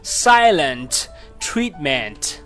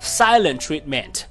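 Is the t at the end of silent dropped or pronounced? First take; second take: pronounced; dropped. First: The t at the end of silent is pronounced. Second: The t at the end of silent is dropped.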